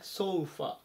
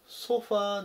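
First: The final vowel is short. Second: The final vowel is long. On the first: The speaker calls it right. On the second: The speaker calls it wrong. "ソファーではなくて"

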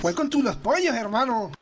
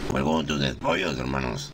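First: It is said in a normal voice. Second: It is said in a deep voice.

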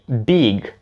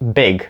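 First: The vowel is a long, soft ee sound. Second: The vowel is a short, hard sound. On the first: The speaker calls it wrong. "на м'ягеньку довгу І. Big замість big" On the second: The speaker calls it right. "короткий звук Е, там не довгий І"

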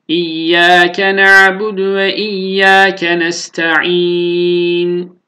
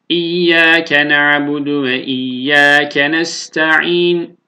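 First: The final long vowel is held for a medium length. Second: The final long vowel is held only briefly. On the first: "Tevassutla işmam yapalım" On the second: "Kasırla işmam"

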